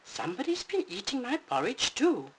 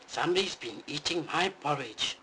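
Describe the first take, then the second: First: It is said in a high, squeaky voice. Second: It is said in a deep, booming voice.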